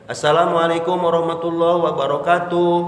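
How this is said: It is said in a moderate, even voice.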